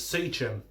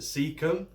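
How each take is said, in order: First: The name does not sound like 'seek 'em'. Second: The name sounds like the phrase 'seek 'em'. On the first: This is the speaker's own preferred way. "to me, it's Seachem" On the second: This is how many other people say it. "a lot of people pronounce it Seachem"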